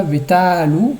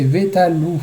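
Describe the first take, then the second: First: "Vetalu" with long "ta"; wrong penultimate stress. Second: "Vetalu" short "ta", weight on "lu"; final-syllable stress. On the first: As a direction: stretch the middle of "Vetalu". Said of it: "c'est pas Vetalu". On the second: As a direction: land firmly on "lu" in "Vetalu". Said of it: "c'est Vetalu". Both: Shown as a demonstration.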